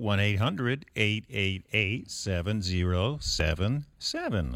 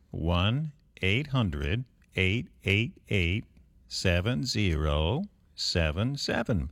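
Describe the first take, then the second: First: The number is said at normal speed. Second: The number is said slowly.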